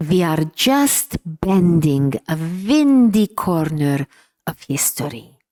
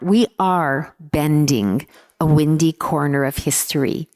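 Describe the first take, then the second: First: Slow, deliberate imitation of a Hungarian accent. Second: Said in the usual way. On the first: Father encouraging his discouraged child, in a Hungarian accent. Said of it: "in his inimitable Hungarian accent".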